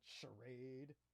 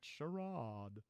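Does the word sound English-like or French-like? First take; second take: English-like; French-like. First: The word is said with an English-sounding vowel. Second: The word is said with a French-sounding vowel. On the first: The speaker calls it wrong. "not charade" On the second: The speaker calls it right. "it's supposed to be sort of Frenchish"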